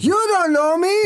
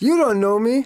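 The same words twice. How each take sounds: First: It is said with more energy, yelled. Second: It is said with little energy.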